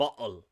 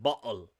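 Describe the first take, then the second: First: The middle T is replaced by a glottal stop. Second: The middle T is replaced by a glottal stop.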